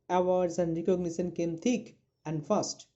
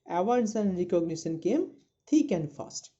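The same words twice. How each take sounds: First: The phrase thick and fast is broken up. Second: The phrase thick and fast flows as one unit. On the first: The speaker calls it wrong. "You are not to uh, read like this" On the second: The speaker calls it right. "You are to read like"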